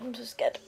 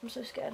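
First: Said in the usual way. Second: Scared unvoiced whisper; hushed nervous whisper. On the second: Real, not acted. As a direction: whisper it to yourself. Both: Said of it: "Oh God, I'm so scared".

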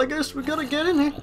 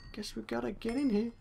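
First: Said in the usual way. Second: Much softer, slightly high repeat; quiet aside. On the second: Real, not acted. Player reluctantly going in, quiet aside to self. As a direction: say it again under your breath.

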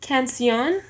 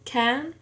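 First: Said in the usual way. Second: "canción" split into separate syllables with pauses. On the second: Shown as a demonstration. Learner dividing a word for a syllable exercise, "canción" syllable by syllable. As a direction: say "canción" one syllable at a time. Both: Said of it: "Todas las sílabas".

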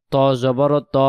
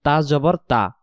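First: ত said full and heavy, mouth rounded; heavy thick ta. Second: তা said with a light, thin tongue tip. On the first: Teacher showing students the heavy ত, thick. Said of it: "ত অক্ষরকে মোটা আওয়াজে পড়তে হবে". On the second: Teacher showing students the light তা, thin. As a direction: keep the তা thin and clear. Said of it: "তা অক্ষরকে পাতলা আওয়াজে পড়তে হবে". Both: Shown as a demonstration.

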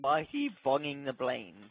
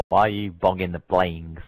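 First: Softer silly repeat. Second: Low-pitched mock question; put-on low voice. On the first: Pretend. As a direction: repeat the silly question more softly. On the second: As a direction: drop your voice low for a silly question. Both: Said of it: "Speaking like that".

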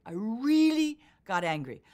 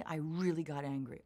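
First: Louder and slower, punching "really"; forceful emphasis. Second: Said in the usual way. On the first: Shown as a demonstration. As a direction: lean into "really got angry".

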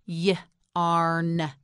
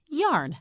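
First: Y-arn split into "yuh" and a long "arn"; Y-arn in two drawn-out parts with a gap; sounded out. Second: Said in the usual way. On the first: Shown as a demonstration. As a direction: break Y-arn after the first sound. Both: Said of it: "You try it".

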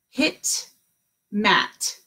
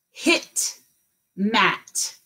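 Both takes have the same delivery.

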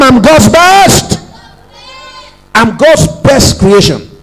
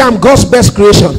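First: Slow, emphatic confession with "best" leaned on; like you mean it. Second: Said in the usual way. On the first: Shown as a demonstration. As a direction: stretch "I'm God's best" slowly, landing hard on "best". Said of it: "Say it like you mean it one more time". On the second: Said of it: "Say it like you mean it".

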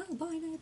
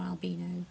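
First: Albino said al-BY-no; alternative pronunciation. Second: Albino said al-BEE-no; alternative pronunciation. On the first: Naming the bat, albino pronounced al-BY-no. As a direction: say albino with a long "eye" in the middle. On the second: Offering the other way, albino pronounced al-BEE-no. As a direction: say albino with an "ee" in the middle. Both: Shown as a demonstration. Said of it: "however you want to say it".

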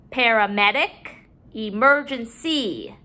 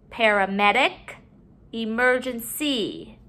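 Both takes have the same delivery.

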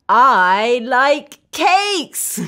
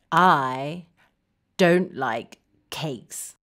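First: Slow, drawn-out happy declaration; slow and emphatic for kids to repeat; enthusiastic liking. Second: Very low, softer, word by word; low, downcast and halting; glum dislike. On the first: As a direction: declare it with relish, word by word. Modelling liking cakes for children. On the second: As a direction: say it glumly, dropping right down. Modelling dislike of cakes. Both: Shown as a demonstration.

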